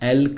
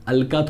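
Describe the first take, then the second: First: The word ends in a consonant sound. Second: The word ends in a vowel sound. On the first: The speaker calls it right. "एल्क बोल" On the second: The speaker calls it wrong. "अलका थोड़ी बोल रहा हूं"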